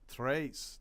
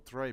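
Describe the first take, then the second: First: The name is said with a Spanish pronunciation. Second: The name is said with a French pronunciation. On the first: The speaker calls it right. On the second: The speaker calls it wrong.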